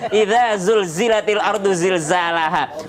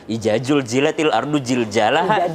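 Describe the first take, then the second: First: It is recited with standard Arabic sounds. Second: It is recited with a Javanese accent. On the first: The speaker calls it right. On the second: The speaker calls it wrong.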